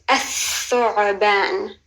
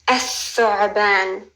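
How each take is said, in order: Both takes have the same delivery.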